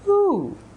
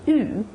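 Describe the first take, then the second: First: The vowel is fuller, with the jaw open. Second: The vowel is tight, with the jaw closed. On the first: The speaker calls it right. "the control is in the jaw" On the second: The speaker calls it wrong. "Not oo"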